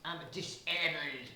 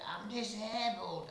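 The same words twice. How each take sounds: First: German accent. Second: The wrong take, pitched up; high squeal. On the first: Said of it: "in sort of German". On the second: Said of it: "I didn't say it like that". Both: Shown as a demonstration.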